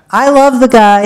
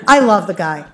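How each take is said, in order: First: Louder, higher, stress on love; emphatic exclamation. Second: Said in the usual way. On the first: Real, not acted. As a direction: declare it with a burst of feeling. Repeating affectionate claim about boss.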